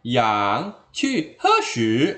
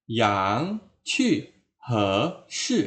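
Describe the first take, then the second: First: Loud HE SHI run together, unlike YANG QU; mismatched tones. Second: YANG, HE rising, QU, SHI falling, evenly spaced; matching tones. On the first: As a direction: rush HE SHI out off the YANG QU tune. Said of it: "itu kan beda bunyinya". (HE SHI salah nada, beda dari YANG QU) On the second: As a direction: give HE SHI the same rise and fall as YANG QU. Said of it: "sama bunyinya". (HE SHI senada dengan YANG QU, naik lalu jatuh) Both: Shown as a demonstration.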